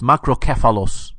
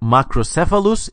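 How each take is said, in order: First: The consonant after macro is a hard k sound. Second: The consonant after macro is a soft s sound. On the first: The speaker calls it right. "the hardcore, manly, Hellenistic K's" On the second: The speaker calls it wrong. "the pansy as soft C's"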